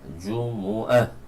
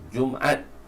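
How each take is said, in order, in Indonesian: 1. Suku kata kedua memiliki vokal u. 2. Tidak ada vokal setelah m. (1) "dibaca dengan dhamma mim" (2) "disukunkan mim"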